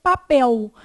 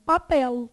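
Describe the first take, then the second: First: "papel" ending in a U sound, like "papéu"; usual regional L. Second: "Papel" with a true L, tongue touching behind the teeth; southern alveolar L. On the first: Teacher showing how we say it here, "papel" with a U-like ending. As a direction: round the final L of "papel" into a W glide. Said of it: "A gente fala". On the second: Teacher imitating speakers from the South, "Papel" with an alveolar L. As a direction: finish "Papel" on a consonant L, no U glide. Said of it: "Com L alveolar". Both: Shown as a demonstration.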